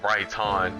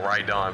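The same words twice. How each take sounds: First: The T in 'right' is clearly pronounced. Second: The T in 'right' is barely heard. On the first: The speaker calls it right. "I should put more of the T in it" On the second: The speaker calls it wrong. "it sounds like I'm saying right on"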